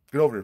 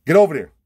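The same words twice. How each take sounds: First: Said in the usual way. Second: High, loud command; loud angry order; shouted order. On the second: Retold or imitated. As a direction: bark him across the yard. Ordering him to apologize.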